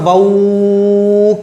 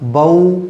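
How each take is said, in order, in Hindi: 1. अक्षर को काफ़ी देर तक खींचा जाता है। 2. अक्षर नरम, तेज़ और थोड़ा सा खींचा जाता है। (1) "खींच खींचते चले जाएं, नहीं ना" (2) "नरम आवाज के साथ जल्दी पढ़ा जाएगा, थोड़ा सा खींचा जाएगा"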